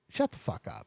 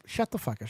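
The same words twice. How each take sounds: First: Hushed, near-whispered astonishment; stunned disbelief. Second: Low, quiet retold disbelief; stunned disbelief. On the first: Retold or imitated. Graduate learning they share a year, stunned. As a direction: let it out under the breath, stunned. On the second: Retelling his shock to the classmate, dumbfounded. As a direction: drop it low and soft, dumbfounded.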